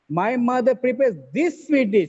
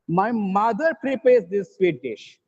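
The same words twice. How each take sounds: First: The stress is on this. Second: The stress is on mother.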